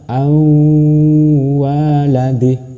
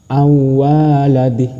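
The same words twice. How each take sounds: First: The sound is held with a nasal hum. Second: The sound is plain, without a nasal hum. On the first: The speaker calls it right. "Tapi yang benar awaladih" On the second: The speaker calls it wrong. "Bukan awaladih, itu salah. / Itu tidak berdengung"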